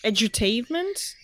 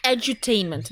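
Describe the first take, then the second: First: Edutainment? asked with a rising unsure tune; unsure rising question. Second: Edutainment. stated firmly with a falling tune; confident statement. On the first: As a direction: say edutainment? as a doubtful question, pitch rising at the end. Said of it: "Is that how it's called?". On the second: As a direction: say Edutainment. as a settled answer, pitch falling at the end. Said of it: "No, you're correct". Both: Real, not acted.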